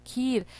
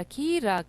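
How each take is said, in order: First: Said in the usual way. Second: खीरा as two long pieces, खी and रा; sounded out. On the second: Shown as a demonstration. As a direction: spell खीरा aloud, stretching each syllable. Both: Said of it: "खा में ई की मात्रा".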